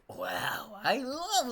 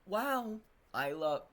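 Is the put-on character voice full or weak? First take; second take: full; weak. First: The character voice is fully put on. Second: The character voice is weak and half-hearted. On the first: The speaker calls it right. "I gotta do a better voice" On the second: The speaker calls it wrong. "No, no, I gotta do a better voice"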